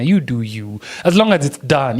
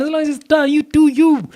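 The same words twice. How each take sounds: First: Said in the usual way. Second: High-pitched, insistent repeat; emphatic reassurance. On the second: Real, not acted. Teacher telling learners anything goes, high-pitched and emphatic. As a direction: drive it home way up high.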